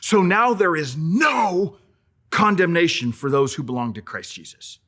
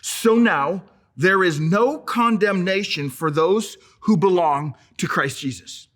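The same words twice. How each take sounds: First: The word 'no' is strongly emphasized. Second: The word 'no' gets no special emphasis.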